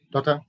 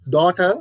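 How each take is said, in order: First: DAUGHTER with a light, flattened T; flat T. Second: DAUGHTER with a strong clear T; British pronunciation. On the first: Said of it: "the flat T sounds". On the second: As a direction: say "daughter" rising, hitting the T. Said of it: "British people, daughter". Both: Shown as a demonstration.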